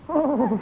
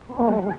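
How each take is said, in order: First: It sounds ecstatic. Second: It sounds passionate.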